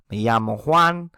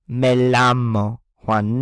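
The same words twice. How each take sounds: First: The double L sounds like an English Y. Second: The double L sounds like an English L. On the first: The speaker calls it right. "They always use" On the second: The speaker calls it wrong. "you would never say"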